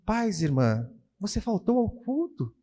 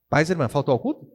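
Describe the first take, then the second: First: It is read in a calm, friendly tone. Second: It is read in an irritated, annoyed tone.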